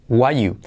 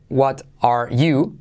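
First: The word 'are' is left out entirely. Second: The word 'are' is pronounced between 'what' and 'you'. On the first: "simplemente decimos what you. Es decir, que omitimos todo el verbo" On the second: "en vez de decir what are"

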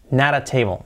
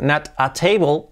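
First: The t is a soft r-like tap, linked. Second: The t is a clear separate t sound. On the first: The speaker calls it right. "se dice nada" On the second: The speaker calls it wrong. "en lugar de decir not a table"

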